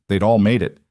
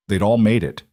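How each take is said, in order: Both takes have the same delivery.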